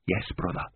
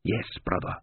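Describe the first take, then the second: First: Breathy voiceless whisper. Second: Said in the usual way. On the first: Acted. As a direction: whisper it, no voice at all. Whispered reply in dark labyrinth.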